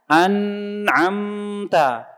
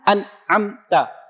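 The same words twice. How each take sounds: First: The n sound flows on continuously. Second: The n sound is held back and blocked. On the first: "Dibikin rokhawah ... dialirin terus" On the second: "dibikin syiddah ... suaranya ditahan tuh"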